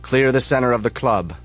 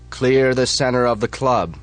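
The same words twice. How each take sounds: First: Loud firm order; leader's call. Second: Loud firm repeated order; leader's call again. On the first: Chapter leader orders the floor cleared, loud call. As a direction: call it from the darkness. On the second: Chapter leader repeats the order, loud firm. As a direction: repeat the command, harder. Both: Acted. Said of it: "yells the voice".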